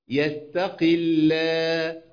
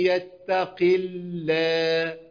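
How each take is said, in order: Both takes have the same delivery.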